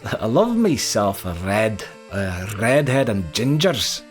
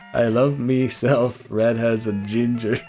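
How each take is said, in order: First: It is said in a put-on Scottish accent. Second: It is said in the speaker's normal accent.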